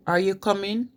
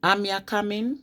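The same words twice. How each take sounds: First: Said in the usual way. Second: Rising Wolverhampton question; Wolverhampton accent. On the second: Shown as a demonstration. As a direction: ask it like a Wolverhampton local. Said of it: "they say".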